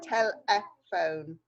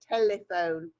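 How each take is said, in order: First: The word is said slowly with every sound clear. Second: The word is said quickly with reduced sounds. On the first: "but it's telephone" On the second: "When we say it fast"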